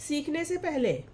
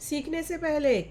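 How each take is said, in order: The two takes are said the same way.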